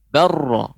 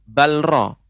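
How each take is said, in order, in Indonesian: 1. Huruf l melebur sepenuhnya menjadi r ganda. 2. Bunyi l tetap diucapkan sebelum r. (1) "Jadi lamnya hilang. Lamnya dilebur ke huruf ra" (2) "bukan balra"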